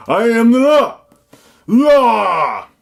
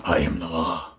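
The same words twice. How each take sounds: First: High, bellowed catchphrase; original movie hero. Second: Low, restrained character voice; movie hero quote. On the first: Reviewer mimicking the original film, over-the-top high shout. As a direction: yell it out with the last word drawn long. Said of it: "That's the original one". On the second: Reviewer quoting Dredd to viewers, low put-on voice. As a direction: deliver the catchphrase low and held back. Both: Acted.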